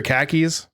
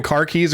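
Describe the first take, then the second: First: "khakis" for car keys, with the r dropped; "khakis" with a short a and no r, meaning car keys. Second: Said in the usual way. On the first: Shown as a demonstration. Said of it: "car keys or khakis". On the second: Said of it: "you don't know if they're saying".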